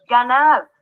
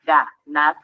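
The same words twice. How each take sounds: First: Said in the usual way. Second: "ganar" en dos golpes, ga y nar, más grave; separado en sílabas. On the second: Shown as a demonstration. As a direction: separa "ganar" con pausa entre sílabas. ("ganar" silabeado para enseñar) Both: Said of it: "Al separarla en sílabas".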